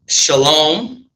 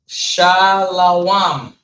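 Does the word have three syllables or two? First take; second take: two; three. First: It is said as two syllables, sha-lom. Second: It is said as three syllables, sha-la-wam. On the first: This is the Yiddish form of the word. The speaker calls it wrong. "shalom is actually the Yiddish" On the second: This is the proper Hebrew form of the word. The speaker calls it right. "That is proper Hebrew"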